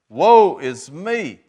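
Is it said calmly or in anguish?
in anguish. It is said with distress, barely getting out.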